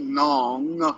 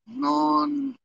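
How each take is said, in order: First: The final g sound is clearly pronounced. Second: The final g sound is dropped. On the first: The speaker calls it wrong. "they don't say nong, g, g, g" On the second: The speaker calls it right. "So you don't hear the m or the g. So it sounds like non"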